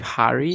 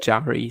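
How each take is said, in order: First: The name begins with an H sound. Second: The name begins with a J sound. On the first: "if you know any Spanish phonetics, it should be" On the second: "he says it Jari, so I also say it like this"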